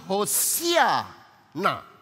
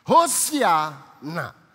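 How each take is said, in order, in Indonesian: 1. Diucapkan dengan 'ee' setelah 's'. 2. Diucapkan dengan 'ee' setelah 's'.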